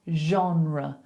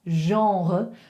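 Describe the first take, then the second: First: It has a plain English r sound. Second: It has a throaty French r sound. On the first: "we just make the R more English" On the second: "a French person would say genre"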